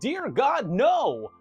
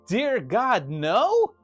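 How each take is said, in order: First: It ends with an exclaiming fall. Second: It ends with a questioning rise.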